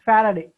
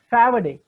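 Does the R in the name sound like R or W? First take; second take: R sound; W sound. First: The name is said with an R sound. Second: The name is said with a W sound. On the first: This is how the name should be said. The speaker calls it right. "not Faraday" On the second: This is how the boy with the speech defect said it. The speaker calls it wrong. "He pronounced Faraday"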